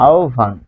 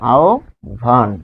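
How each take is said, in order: First: আহ্বান run together as "aobhan"; joined pronunciation. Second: আহ্বান as rising "ao", pause, then "bhan"; split pronunciation. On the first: Teacher points out the o-like sound, joined pronunciation. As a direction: say আহ্বান in one go, o then bh. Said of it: "দেখুন ও এর মতো". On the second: Teacher repeats the word for learners, split pronunciation. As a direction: break আহ্বান into two separate parts. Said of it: "তাহলে এটি হবে". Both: Shown as a demonstration.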